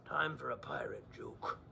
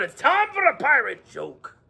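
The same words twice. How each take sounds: First: Hushed whisper. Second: Said in the usual way. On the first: Acted. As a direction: whisper it like a secret. Repeats the phrase unvoiced.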